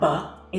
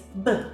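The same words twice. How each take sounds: First: The b is followed by an added uh vowel. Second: The b is clipped with no vowel after it. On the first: The speaker calls it wrong. "It's not b, that uh sound you're hearing after you say letters like p and t and b, that's called the schwa" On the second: The speaker calls it right. "it's b"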